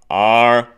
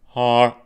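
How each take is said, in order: First: The word starts with a sharp glottal catch. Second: The word starts with a breathy h sound. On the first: The speaker calls it right. "a glottal onset on that R" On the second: The speaker calls it wrong. "instead of har"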